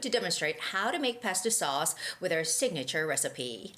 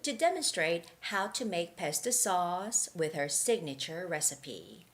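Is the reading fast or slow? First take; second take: fast; slow. First: It is read at a faster pace. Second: It is read at a slow pace. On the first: "I'm going to read it rhythmically a little faster" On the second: "so that was the slow version"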